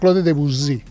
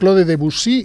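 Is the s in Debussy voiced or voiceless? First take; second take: voiced; voiceless. First: The s in Debussy is a buzzing voiced sound. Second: The s in Debussy is a voiceless hiss. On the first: The speaker calls it wrong. "i no Claude Debussy" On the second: The speaker calls it right. "Dues, sorda. Per tant, és Claude Debussy"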